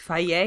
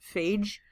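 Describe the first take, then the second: First: It is said ending in a yeh sound. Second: It is said to rhyme with age. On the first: The speaker calls it right. "but actually faye" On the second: The speaker calls it wrong. "for Greeks to name their yogurt phage"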